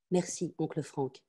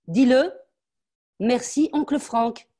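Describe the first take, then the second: First: Softer, slow small thank-you; cowed child. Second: Higher and louder, spelling it out; dictated thanks. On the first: Frightened girl repeating her thanks to her uncle, soft and slow. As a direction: mumble it out, defeated. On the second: Mother dictating the thanks to her daughter, higher and louder. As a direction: dictate the words she must say. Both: Acted.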